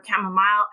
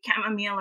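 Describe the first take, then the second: First: "chamomile" ending in -mile; variant pronunciation. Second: "chamomile" ending in -meel; variant pronunciation. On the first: Speaker contrasting two variants, "chamomile" as KAM-uh-mile. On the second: Speaker contrasting two variants, "chamomile" as KAM-uh-meel. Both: Shown as a demonstration. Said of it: "if you say chamomile or chamomile".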